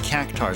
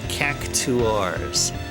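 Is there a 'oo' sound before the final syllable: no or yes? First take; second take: no; yes. First: It is said without a 'oo' sound mid-word. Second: It is said with a 'oo' sound mid-word. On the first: "They didn't pronounce them as cactars" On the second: "they called them cactuars"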